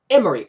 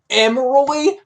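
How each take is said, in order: First: The name ends with a ree sound. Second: The name ends with a roy sound. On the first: The speaker calls it right. "It's Emery" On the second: The speaker calls it wrong. "Her name isn't Emeroy"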